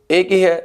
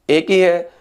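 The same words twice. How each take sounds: The two takes are said the same way.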